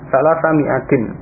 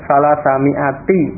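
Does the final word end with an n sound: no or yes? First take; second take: yes; no. First: The last word ends with an n sound. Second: The last word ends on a vowel, without n. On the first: The following noun stands in apposition, in the accusative. "Ini kalau dibaca tanwin" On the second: The following noun is a genitive annexed to the number. "kalau tidak dibaca tanwin"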